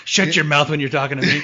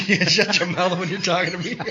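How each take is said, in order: First: Laughing through a mock threat; high, laughing taunt. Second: High-pitched laughing repeat. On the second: Retold or imitated. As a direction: giggle through the taunt.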